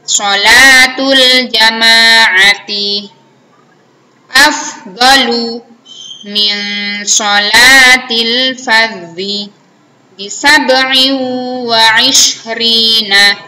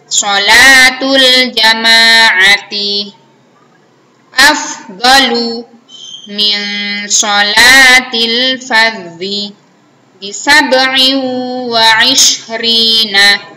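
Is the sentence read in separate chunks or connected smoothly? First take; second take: chunked; chunked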